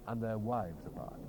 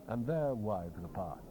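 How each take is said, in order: Both takes have the same delivery.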